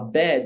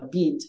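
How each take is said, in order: First: It is said without a New Zealand accent. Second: It is said with a New Zealand accent.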